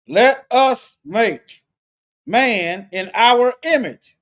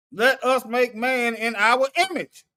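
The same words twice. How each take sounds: First: Each word drawn out and louder, every syllable held; slow weighty reading. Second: Said in the usual way. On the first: Acted. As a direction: read Let us make man in our image slowly, as solemn scripture. Slow emphatic scripture reading.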